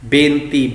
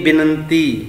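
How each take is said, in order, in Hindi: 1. पहला स्वर लंबा 'e' है। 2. पहला स्वर छोटा 'i' है। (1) "बेनती नहीं" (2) "नहीं बिनती"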